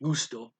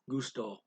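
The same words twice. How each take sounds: First: The stress is on the first syllable. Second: The stress is on the second syllable. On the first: The speaker calls it wrong. "it's not gusto" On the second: The speaker calls it right. "The accent is on the second syllable or evenly"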